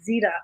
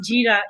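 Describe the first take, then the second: First: The word begins with a z sound. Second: The word begins with a j sound. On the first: This is the form used in Pakistan. The speaker calls it right. "it's zira" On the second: This is not the form used in Pakistan. The speaker calls it wrong. "it's not jeera"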